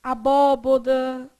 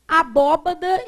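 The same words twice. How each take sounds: First: Abóboda said slowly with bo in the middle, the common mistake; slow demo of the mistaken Abóboda; wrong form, slowly. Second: Abóbada said with an open ó in the middle, abó-ba-da; the right way to say abóbada; correct form. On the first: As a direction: drag out Abóboda as the wrong version. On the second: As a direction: stress the first ó of abóbada and say ba, not bo. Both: Shown as a demonstration. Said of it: "abóbada e não o quê?".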